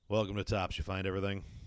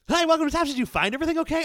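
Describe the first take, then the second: First: It sounds flat, gloomy and down. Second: It sounds over-the-top cheerful and excited.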